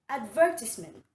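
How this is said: It is said the British way. "while in the British English, it is pronounced as advertisement"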